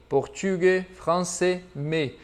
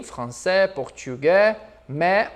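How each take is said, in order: First: "portugais, français, mais" ending in closed é; closed -ais ending. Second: "français, portugais, mais" ending in open è; open -ais ending. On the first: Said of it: "ou fechadinho". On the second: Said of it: "utilizá-lo como abertinho". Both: Shown as a demonstration.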